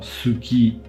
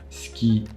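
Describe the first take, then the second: First: The first vowel is fully voiced. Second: The first vowel is devoiced. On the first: The speaker calls it wrong. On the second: The speaker calls it right.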